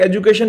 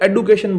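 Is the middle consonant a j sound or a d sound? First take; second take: j; d. First: The middle consonant is a j sound. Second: The middle consonant is a d sound. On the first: The speaker calls it right. "ऐसी एजुकेशन नहीं बोलते" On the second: The speaker calls it wrong. "एडुकेशन तो कोई word ही नहीं है"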